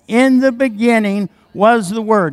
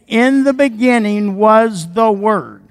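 First: It is said in a plain, even way. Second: It is said forcefully, with strong conviction. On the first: "One more time" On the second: "Now say it like you mean it"

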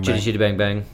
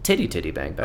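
First: The first two words start with a 'ch' sound. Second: The first two words start with a 't' sound. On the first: The speaker calls it right. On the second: The speaker calls it wrong.

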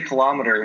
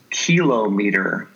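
First: It is pronounced the usual American English way. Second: It is pronounced the way a Swedish speaker says it. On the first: "she doesn't say kilometer" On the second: "She says kilometer"

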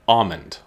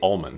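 First: The word has a W sound instead of L. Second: The word has a clear L sound. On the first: "So they put like a W sound in place of the L" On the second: "With the L"

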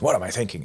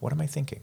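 First: It is asked in a harsh, self-blaming tone. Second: It is asked with gentle curiosity.

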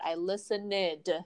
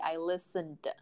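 First: The ending is an extra syllable with a vowel. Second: The ending is a bare d sound, no vowel. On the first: The speaker calls it wrong. "I hear students make that mistake a lot" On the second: The speaker calls it right. "So the correct way should be"

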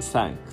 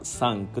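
First: The vowel is the open 'a' of 'cat'. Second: The vowel is a plain, unspread 'a' sound. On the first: The speaker calls it right. "キャットのA ですね。あいうえおのA の口で、あっていう" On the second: The speaker calls it wrong. "ちょっと今発音悪かったですけど、ちゃんと発音してないですね"

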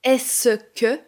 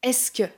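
First: The middle vowel is fully pronounced. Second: The middle vowel is dropped. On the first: "Au lieu de dire « est-ce que »" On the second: "on va dire « est-ce que ». Le « e » du « ce » est supprimé"

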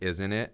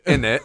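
First: Both words are said in full. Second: The words are reduced to one word, innit. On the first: "most people would be like" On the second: "But when he says in it"

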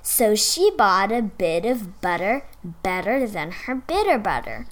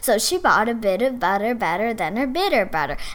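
First: It is said slowly. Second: It is said fairly fast.

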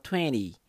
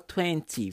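First: It is said quickly with its sounds reduced. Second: Every sound is said fully and carefully. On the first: This is how it is said in everyday fast speech. The speaker calls it right. "no dia a dia e na rapidez da fala ... você fala 20" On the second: This sounds more British than everyday speech. The speaker calls it wrong. "Claro que 20 não é normal de se falar, a não ser que você esteja num sotaque mais britânico"

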